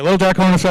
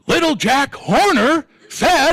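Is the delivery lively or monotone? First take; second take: monotone; lively. First: It is said in a flat monotone. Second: It is said with lively, varied pitch. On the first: "Same monotone" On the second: "we don't go"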